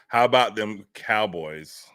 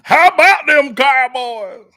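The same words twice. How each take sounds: First: It is said hesitantly and weakly. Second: It is said loudly and with confidence.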